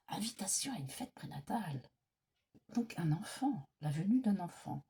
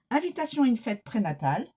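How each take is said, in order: First: Soft unvoiced whisper to herself; whispered repeat. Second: Said in the usual way. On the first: Real, not acted. Reader whispers the card meaning back to herself, whispering. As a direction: mouth it quietly as you take it in.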